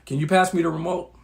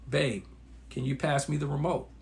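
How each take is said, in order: First: It is said in a harsh, irritated tone. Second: It is said in a smooth, gentle tone.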